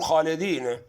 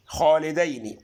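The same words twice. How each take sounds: First: خالدين said xaledin, ending clipped; خالدين read without the final i; wrong reading. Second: خالدين said xaledeni with final i; خالدين ending in a drawn ni; correct reading. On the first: Teacher warns viewers against خالدين as xaledin. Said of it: "اوعى تقول". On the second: Teacher gives the correct خالدين, xaledeni. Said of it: "الوحيدة برضه في القرآن". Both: Shown as a demonstration.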